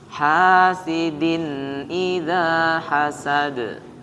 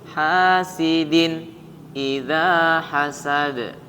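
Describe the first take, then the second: First: Hasidin flows into idza without a break. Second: There is a short break after hasidin. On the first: The speaker calls it right. "jangan diputus" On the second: The speaker calls it wrong. "ada jeda sehingga akan memberikan kesan seolah-olah kayak saktah"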